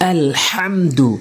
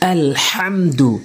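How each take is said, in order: First: The h comes from deep in the mid-throat. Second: The same.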